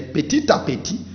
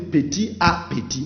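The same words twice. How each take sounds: First: The final consonant links into the next word. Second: The final consonant does not link into the next word. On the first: The speaker calls it right. "mais petit à petit" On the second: The speaker calls it wrong. "You don't say petit à petit"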